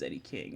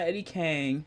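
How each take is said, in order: First: The surname is said with an 'ing' vowel. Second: The surname is said with an 'ang' vowel. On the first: The speaker calls it right. "it's Eddie King" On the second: The speaker calls it wrong. "It's not Eddie Kang"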